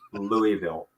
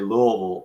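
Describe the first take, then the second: First: It is said the Northern, Chicago way. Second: It is said the local Kentucky way. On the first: This is how a family from Chicago says it. "that's Louisville" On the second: This is how people in the local school say it. "I learned to say Louisville in school"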